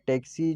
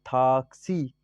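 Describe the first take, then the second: First: The word is said with an English accent. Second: The word is said with a Persian accent. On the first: "जो इंग्लिश में है" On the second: "फारसी जबान में जब पढ़ा जाता है तो बोलते हैं थाक्सी"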